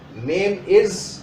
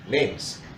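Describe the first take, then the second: First: The verb is said as a separate full word. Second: The verb is shortened and joined to the noun. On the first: The speaker calls it wrong. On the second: The speaker calls it right. "Use contractions"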